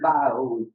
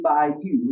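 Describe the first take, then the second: First: The word ends with an 'oh' sound. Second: The word ends with a 'you' sound. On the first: The speaker calls it right. "It's, it's uh, Blue Bayou" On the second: The speaker calls it wrong. "Here's not Blue Bayou"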